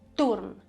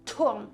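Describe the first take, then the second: First: The T is soft, sounding like a D. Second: The T is strong, with a puff of breath. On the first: This is the Swiss German pronunciation. "In Swiss German, that's" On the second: This is the standard German pronunciation. "In German, you would say"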